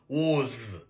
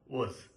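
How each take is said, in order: First: The vowel is a full, open 'o' sound. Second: The vowel is a short, reduced schwa sound. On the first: "That is a strong form" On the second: "Weak form is W and a schwa sound, then Z"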